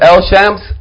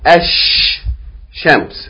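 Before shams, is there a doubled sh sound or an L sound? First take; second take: L sound; doubled sh. First: An L sound is heard before shams. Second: The L is dropped and sh is doubled. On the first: The speaker calls it wrong. "Instead of L shams" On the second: The speaker calls it right. "We're going to double the first letter"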